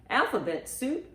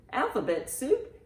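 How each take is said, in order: Both takes have the same delivery.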